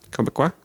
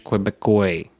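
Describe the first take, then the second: First: Quebecois ending in "kwah", questioning; tentative Quebecois with a "kwah" ending; corrected Quebecois. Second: Quebecois ending in "koy"; mispronounced Quebecois. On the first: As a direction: say Quebecois as "keb-uh-kwah", rising. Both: Real, not acted.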